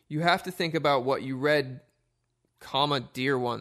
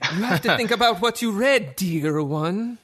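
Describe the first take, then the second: First: It is read in a plain voice. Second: It is said in an evil, sinister voice.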